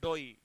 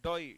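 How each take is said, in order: The two takes are said the same way.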